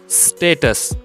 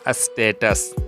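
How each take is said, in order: First: It begins directly with the s sound. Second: A vowel sound comes before the s sound. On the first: The speaker calls it right. "half S sound like status" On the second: The speaker calls it wrong. "not a status"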